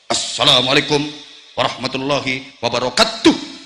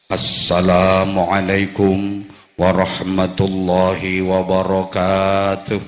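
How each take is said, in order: First: It is said in a firm, clipped soldier's voice. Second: It is said in a big, booming preacher's voice.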